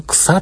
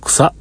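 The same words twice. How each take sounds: First: 臭っ said much higher, a sharp reaction; 臭っ jumping up high in mock disgust. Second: Said in the usual way. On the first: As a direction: squeal 臭っ as if hit by a smell. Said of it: "って思ってたんやけれども". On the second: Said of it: "って思ってたんですけど".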